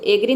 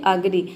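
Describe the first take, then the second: First: एग्री said with a clear "e" sound at the start, as in "egg"; wrong pronunciation. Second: अग्री said with a short neutral "a" at the start, as in "about"; correct pronunciation. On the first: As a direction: demo the wrong way: एग्री, opening on "e". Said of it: "इसको एग्री नहीं बोलते हैं". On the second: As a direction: demo the right way: अग्री, opening on "uh". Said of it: "इसको बोलते हैं अग्री". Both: Shown as a demonstration.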